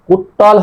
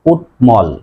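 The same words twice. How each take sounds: First: কুট্টল, doubled t replacing tm; wrong pronunciation. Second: কুটমল split into kut, mol; correct pronunciation. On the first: Teacher repeats the forbidden form, doubled t in কুট্টল. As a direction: drop the m, say কুট্টল. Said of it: "কুট্টল হবে না". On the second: Teacher repeats the right form, clear tm in কুটমল. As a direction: sound the m after t in কুটমল. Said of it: "উচ্চারণ হবে". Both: Shown as a demonstration.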